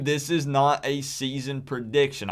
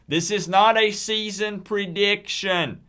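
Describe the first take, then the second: First: It is said at normal volume. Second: It is said loudly.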